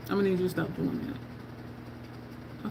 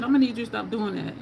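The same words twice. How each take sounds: First: Slow, soft mock-stern whisper; whispered warning. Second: Said in the usual way. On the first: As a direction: breathe the warning like a secret. Retold warning whispered, slowed.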